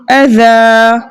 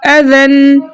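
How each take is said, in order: First: "अज़ा" with the n dropped and the final aa held; pausal long-a ending. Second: "अज़न" chanted with a held nasal n; tanween ending. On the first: Teacher gives the stopped form, "अज़ा" ending on a long aa. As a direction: stretch the last vowel of "अज़ा", no n. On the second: Teacher gives the same rule's first form, "अज़न" ending on a held n. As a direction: hum out the final n of "अज़न". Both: Shown as a demonstration. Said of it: "इसी तरीके से यहाँ भी".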